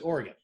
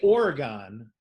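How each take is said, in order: First: It is pronounced the way locals say it. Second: It is pronounced the way outsiders say it. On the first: The speaker is from the state. The speaker calls it right. "they pronounce it Oregon" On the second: The speaker is not from the state. The speaker calls it wrong. "if you say Oregon, is wrong, they know you're not from Oregon"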